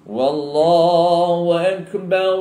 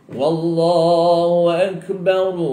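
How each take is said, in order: No difference in how they are said.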